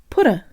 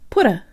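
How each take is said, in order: The two takes are said the same way.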